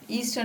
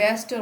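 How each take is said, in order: First: The first vowel is a long 'ee' sound. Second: The first vowel is a short 'eh' sound. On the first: The speaker calls it wrong. "ईस्टर नहीं" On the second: The speaker calls it right. "यहाँ पे एस्टर होता है"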